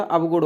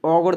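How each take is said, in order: First: अवगुण with a separate v sound, av-gun; correct form shown. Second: अवगुण with av merged into au, augun; mispronunciation shown. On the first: Teacher giving learners the accepted form, अवगुण said as av-gun. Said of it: "होगा". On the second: Teacher showing learners the rejected form, अवगुण said as augun. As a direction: say अवगुण as au-gun, without a v sound. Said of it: "नहीं होता". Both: Shown as a demonstration.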